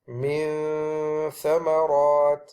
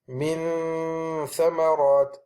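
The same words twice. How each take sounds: First: The n is made with a light tongue touch. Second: The n is made with the tongue pressed firmly. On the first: The speaker calls it right. "So we will say" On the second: The speaker calls it wrong. "if I placed it and I pressed it onto the tip of the incisors, it will sound like this"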